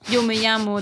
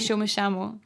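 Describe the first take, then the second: First: The 'll' and 'y' sound like English 'y'. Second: The 'll' and 'y' sound like English 'sh'. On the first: This is the usual Spanish pronunciation. "instead of yo me llamo" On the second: This is the Argentinian pronunciation. "they would say yo me llamo"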